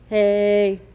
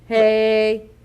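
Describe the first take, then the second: No difference in how they are said.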